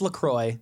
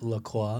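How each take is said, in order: First: The name is given an English-style pronunciation. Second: The name is given a French-style pronunciation. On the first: This is the long-established pronunciation. The speaker calls it right. "No, it's LaCroix" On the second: Others insist on this pronunciation. The speaker calls it wrong. "people our age, are always like, oh, no, it's actually LaCroix"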